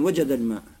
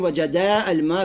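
First: The alif drops, linking straight into l-maa. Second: The alif vowel before al-maa is pronounced. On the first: The speaker calls it right. "а говорим" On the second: The speaker calls it wrong. "мы не говорим"

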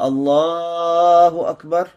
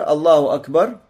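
First: The word Allah is drawn out long. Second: The word Allah is said at normal length. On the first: The worshippers now sit for the first tashahhud. "продлевали произнесение слова «Аллах»" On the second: It is an ordinary transition with no special signal. "как обычно уже"

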